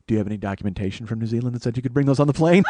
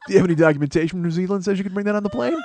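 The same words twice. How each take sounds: First: Fast, laughing gotcha line; gleeful laughing taunt. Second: Triumphant retelling; gleeful replay. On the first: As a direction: fire the question, laughing at him. Taunting the wine guy. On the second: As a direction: replay the line with glee. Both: Retold or imitated.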